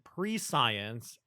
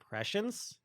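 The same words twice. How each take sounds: First: The word ends like the word science. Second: The word ends like the end of omniscience. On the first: The speaker calls it wrong. "It's not pronounced pre-science" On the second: The speaker calls it right. "I think it's pronounced like prescience, like omniscience"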